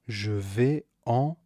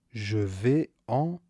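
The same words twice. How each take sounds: The two takes are said the same way.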